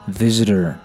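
The middle t sounds like a soft d. "美式发音会把它读成visitor"

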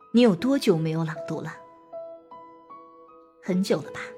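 A long pause separates the question and answer. The listener gets time to think about the question. The speaker calls it right. "董卿就给了2 个时间不小的停顿。"

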